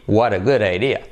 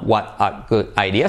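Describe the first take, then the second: First: The words run together without any breaks. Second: Each word is said separately with small breaks. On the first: The speaker calls it right. "en inglés no se separan las palabras" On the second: The speaker calls it wrong.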